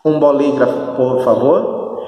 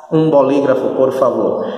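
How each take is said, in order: Both takes have the same delivery.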